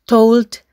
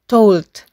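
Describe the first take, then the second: First: The vowel glides into a slight 'oo' sound. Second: The same.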